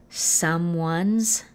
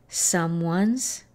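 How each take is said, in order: The two takes are said the same way.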